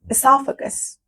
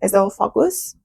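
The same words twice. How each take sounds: First: It is pronounced in the standard English way. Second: It is pronounced the way Iranian students say it. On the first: The speaker calls it right. "I pronounced that incorrectly" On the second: The speaker calls it wrong. "we say it like this at university in Iran"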